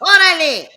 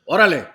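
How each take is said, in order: First: It is said at a high pitch. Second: It is said at a fairly low pitch.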